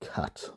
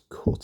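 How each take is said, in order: First: The vowel sounds different from the one in put. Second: The vowel sounds the same as in put. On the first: "people in the south of England have a contrast" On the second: "I do not"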